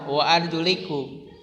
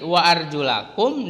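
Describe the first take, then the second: First: The vowel after arjul is an i. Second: The vowel after arjul is an a. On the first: The feet are wiped. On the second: The feet are washed.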